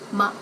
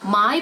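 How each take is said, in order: First: The vowel is a plain ah sound. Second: The vowel is a gliding diphthong.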